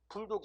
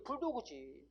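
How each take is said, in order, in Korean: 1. 이 단어는 닫힌 음절 'dog'로 끝나요. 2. 이 단어는 'dogeu'처럼 모음이 하나 더 붙어서 끝나요. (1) "불독이 아니라고"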